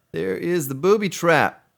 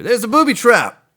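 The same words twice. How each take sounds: First: Said in the usual way. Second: Loud, high ad-announcer voice; commercial announcer. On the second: Retold or imitated. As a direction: belt it like a radio ad. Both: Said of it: "I just played that commercial".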